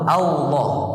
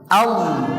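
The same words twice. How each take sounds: First: The first l is replaced by a w-like sound. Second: A clear l follows the opening vowel directly. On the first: The speaker calls it wrong. "lam pertama dengan waw" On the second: The speaker calls it right. "Berarti langsung lam"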